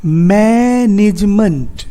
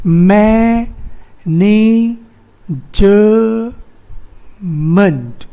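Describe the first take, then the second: First: मैनेजमेंट drawn out as मै-निज-मंट; three-syllable split. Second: मैनेजमेंट in four long held pieces, मै-ने-ज-मेंट; wrong syllable split. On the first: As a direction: stretch मैनेजमेंट slowly, joining ज to the middle syllable. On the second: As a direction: give the ज in मैनेजमेंट its own stretched syllable. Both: Shown as a demonstration. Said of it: "तो यहाँ पे ज नहीं है".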